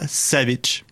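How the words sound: The name is said with French pronunciation. "je le prononce en français"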